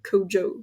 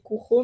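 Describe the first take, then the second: First: The name is pronounced in an American way. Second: The name is pronounced in a French way. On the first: "dans les podcasts américains que j'ai écoutés, euh, tout le monde dit euh, Kojo" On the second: "je pense qu'on dit Kuro"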